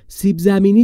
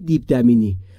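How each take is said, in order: First: The words begin with 's' and 'z' sounds. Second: Both words begin with a 'd' sound. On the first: An older sibling is correcting it. The speaker calls it right. "سیب زمینی درسته" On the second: A small child is saying it. The speaker calls it wrong. "نه دیب دمینی"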